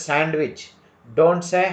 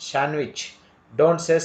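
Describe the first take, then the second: No difference in how they are said.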